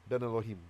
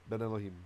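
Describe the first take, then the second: The two takes are said the same way.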